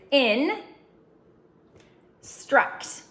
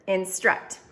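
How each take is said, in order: First: The two syllables are said apart with a pause. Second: The syllables are blended smoothly into one word. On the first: "this part is in, struct" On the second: "Say it like a word"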